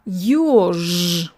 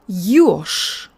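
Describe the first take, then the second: First: The final consonant stays voiced throughout. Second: The final consonant becomes voiceless, like sh. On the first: "You feel the vocal folds vibrating all the way through?" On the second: "Now let's make them stop before the word ends"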